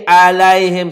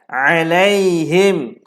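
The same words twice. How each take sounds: First: It starts with a plain glottal catch. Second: It starts with a nasal throat sound. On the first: The speaker calls it wrong. "Salah. Bukan a" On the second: The speaker calls it right. "Sengau. Kena ada sengau"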